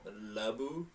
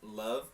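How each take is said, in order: First: It is said with a partly Japanese accent. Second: It is said with a plain English accent.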